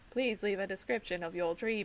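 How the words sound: It is said in an imitated British accent.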